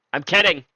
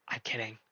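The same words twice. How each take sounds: First: Said in the usual way. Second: Muttered almost under the breath; quiet. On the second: Real, not acted. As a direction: drop it to a near-silent aside. Taking back a joke.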